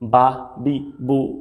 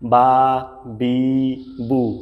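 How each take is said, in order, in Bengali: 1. স্বরধ্বনিগুলো ছোট এবং দ্রুত পড়া হয়। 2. স্বরধ্বনিগুলো টেনে লম্বা করে বলা হয়। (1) "পড়তে হবে কিরকম" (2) "এরকম পড়া যাবে না, তাহলে এটা ভুল।"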